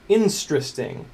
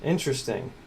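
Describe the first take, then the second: First: "Instristing", squashed to in-STRIS-ting; comic mispronunciation. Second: Said in the usual way. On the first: Shown as a demonstration. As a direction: say interesting wrongly as "Instristing", leaning on the start. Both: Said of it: "As I've heard it pronounced".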